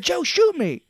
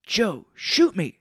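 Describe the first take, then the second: First: Very high, loud mock cry; hammed-up urging. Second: Slow, louder mock plea; acted urging. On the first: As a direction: yell the pretend plea in a squeezed high voice. Retold plea, repeated bigger. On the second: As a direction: draw out a pretend command to Joe. Retold plea, first take.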